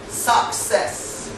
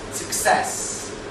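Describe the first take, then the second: First: The unstressed vowel is a full vowel. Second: The unstressed vowel is a short schwa. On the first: The speaker calls it wrong. "the word is not said success" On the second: The speaker calls it right. "So a is called schwa"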